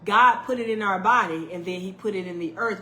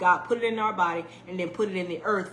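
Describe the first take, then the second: First: It is said at a slower pace. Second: It is said at a faster pace.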